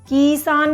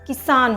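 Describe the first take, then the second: First: The first vowel is drawn out long. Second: The first vowel is quick and short. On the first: The speaker calls it wrong. "किसान नहीं होता" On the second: The speaker calls it right. "किसान होता है, तो क पर fast"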